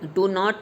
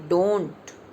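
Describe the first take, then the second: First: Two full words, do and not. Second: One short contracted syllable. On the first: The speaker calls it wrong. "डू नॉट नहीं बोलेंगे" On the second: The speaker calls it right.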